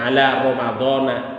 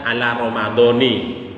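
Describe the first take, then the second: First: The word ends with an 'a' vowel. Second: The word ends with an 'i' vowel. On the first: The speaker calls it right. "nggak ada ala Ramadhani" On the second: The speaker calls it wrong. "Salah itu"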